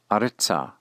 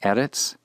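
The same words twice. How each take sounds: First: "aretza" stressed on a, falling; retained first-syllable accent. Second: "Eretz" stressed on E, rising; first-syllable accent. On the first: Teacher shows the hey locative aretza, keeping first-syllable accent. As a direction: hit the first syllable of "aretza", leaving -tza unstressed. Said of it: "retains that first syllable accent". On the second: Teacher shows the plain word Eretz, accented on its first syllable. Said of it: "accent on the first syllable". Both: Shown as a demonstration.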